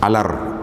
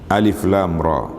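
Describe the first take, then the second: First: The letters are blended into one short word. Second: Each letter name is spoken separately. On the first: The speaker calls it wrong. "ada orang baca alar ditulis gitu" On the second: The speaker calls it right. "Makna huruf dibaca dibaca satu-satu"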